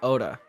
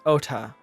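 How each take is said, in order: First: The middle consonant is softened, like a d. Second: The middle consonant is a clear t. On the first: The speaker calls it wrong. "I always say Oda" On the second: The speaker calls it right. "It's Ota"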